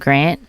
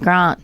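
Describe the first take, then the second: First: It is said in a plainer general Australian accent. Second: It is said in a posher South Australian accent. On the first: The speaker calls it wrong. "It's not Grant" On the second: The speaker calls it right. "we just say things a little bit posher"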